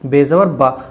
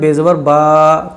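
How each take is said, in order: First: The final vowel is said short and quick. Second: The final vowel is stretched out long. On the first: The speaker calls it right. "जल्दी पढ़ जाएंगे, खींच कर नहीं पढ़ जाएंगे" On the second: The speaker calls it wrong. "अब कोई अगर इसको ऐसे पढ़े बेजबर बा तो ये गलत"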